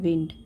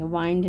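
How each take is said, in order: First: The vowel sounds like the 'i' in 'pin'. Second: The vowel sounds like the 'i' in 'kind'. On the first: The speaker calls it right. "विंड pronounce करेंगे" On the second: The speaker calls it wrong. "वाइंड नहीं"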